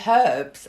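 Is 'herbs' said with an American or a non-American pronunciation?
non-American. The word has a non-American pronunciation. "I didn't even say herbs"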